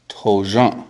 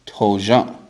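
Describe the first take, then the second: No difference in how they are said.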